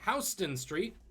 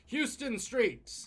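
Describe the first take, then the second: First: Houston is said the New York way. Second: Houston is said the usual, non-New York way.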